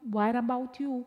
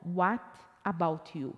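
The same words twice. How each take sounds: First: The words are linked quickly into one run. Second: Each word is said slowly and separately. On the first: This is how a fluent or native speaker says it. "você vai escutar a pessoa falando" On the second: This is how a learner would expect it. "não"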